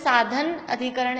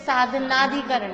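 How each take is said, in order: First: The two parts are said as separate words. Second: The two parts merge into one joined word. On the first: "अगर हम अधिकरण बोल रहे हैं तो साधन अधिकरण ऐसे बोले" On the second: "नहीं तो फिर साधनाधिकरण"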